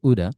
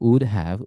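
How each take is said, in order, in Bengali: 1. এটা একটি সংকুচিত শব্দ হিসেবে বলা হয়। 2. এটা দুটি পূর্ণ শব্দ হিসেবে বলা হয়।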